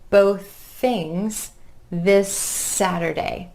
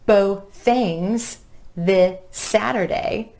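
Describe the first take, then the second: First: The repeated sounds run together without a break. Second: The repeated sounds are said separately with a break. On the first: The speaker calls it right. "You're keeping that airflow going between the words" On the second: The speaker calls it wrong. "it's not both things this Saturday"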